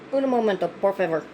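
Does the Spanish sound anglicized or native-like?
anglicized. It is said with an English-sounding accent. The speaker calls it wrong. "I'm aware I said that wrong"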